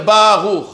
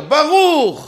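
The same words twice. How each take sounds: First: "Baruch" stressed wrongly on a drawn-out BA; BAA-ruch, first syllable long and heavy. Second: "Baruch" with the weight on RUCH; short BA, then a long, strong RUCH; ba-RUUCH, landing firmly on the last syllable; stress on second syllable. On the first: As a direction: lean on the BA of "Baruch", let "ruch" fall away. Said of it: "faut pas dire Baruch". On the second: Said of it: "il faut dire Baruch". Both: Shown as a demonstration.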